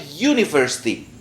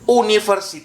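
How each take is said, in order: First: The first vowel sounds like 'u'. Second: The first vowel sounds like 'o'. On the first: The speaker calls it right. "Ini bacanya u" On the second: The speaker calls it wrong. "Ini bacanya o atau u"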